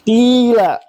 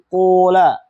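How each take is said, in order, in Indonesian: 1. Vokal pertama adalah bunyi i murni. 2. Vokal pertama adalah bunyi u murni. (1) "Boleh kita kasrah fa'nya" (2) "Boleh bagi kamu mendhamma fa-fa-nya"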